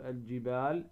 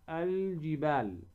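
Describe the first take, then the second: First: "الجبال" with the L of "ال" passed over quickly, not held; wrong, unclear lam. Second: "الجبال" with the L of "ال" sounded out and held; lam pronounced clearly. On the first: Tajwid teacher showing what not to say, L slighted in "الجبال". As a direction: rush past the L in "الجبال". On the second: Tajwid teacher showing the moon lam, L clearly sounded in "الجبال". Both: Shown as a demonstration. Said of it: "ولا نقول الجبال".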